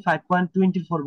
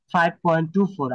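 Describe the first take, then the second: First: ফাইভ পয়েন্ট টোয়েন্টি ফোর with the digits after the point read as one number, twenty-four; wrong decimal reading. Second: ফাইভ পয়েন্ট ଟୁ ফোর with each digit after the point spoken on its own, two then four; digits said separately. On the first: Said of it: "এটা ভুল, ভুল pronounce হবে". (ভুল উচ্চারণ: দশমিকের পরে টোয়েন্টি ফোর একসাথে বলা) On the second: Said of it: "ভেঙে ভেঙে বলবো যে". (দশমিকের পরে প্রতিটি অঙ্ক আলাদা করে: ফাইভ পয়েন্ট টু ফোর) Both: Shown as a demonstration.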